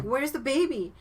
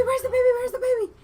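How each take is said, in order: First: Raised, louder imitation of alarm; alarmed group question. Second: Very high, loud mock-panic shrieking; freaking out. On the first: Voicing everybody at the party asking after the baby, raised alarm. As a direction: call it out as the worried crowd, mildly hammed-up. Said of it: "everybody was like". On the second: Retelling a mother missing her baby, high frantic freak-out. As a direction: imitate a frantic mother, pitched way up and yelling. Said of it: "she starts freaking out".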